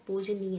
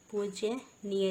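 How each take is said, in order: First: पूजनीय as "poojneeya"; plain j, no y, in पूजनीय; correct pronunciation. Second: पूज्यनीय as "poojyaneeya"; wrong pronunciation. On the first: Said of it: "शुद्ध क्या होता है". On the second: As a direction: add a y after j in पूज्यनीय. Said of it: "लिखा है यहाँ पर". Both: Shown as a demonstration.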